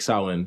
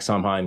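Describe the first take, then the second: First: It is pronounced the Gaelic way, not as spelled. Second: It is pronounced the anglicized way, as spelled. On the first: "but it's supposed to be like Samhain" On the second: "some of us say it like Samhain because we don't we're not freaking Gaelic"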